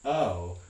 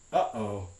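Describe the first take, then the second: First: The two vowels glide together without a catch. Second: A glottal catch separates the two vowels. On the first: "this one that's missing the medial glottal stop" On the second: "It has two glottal stops"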